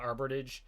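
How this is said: The T sound is dropped or weakened. This is how a Vermonter says it. "because of my more Vermont accent, I go I call it arbitrage"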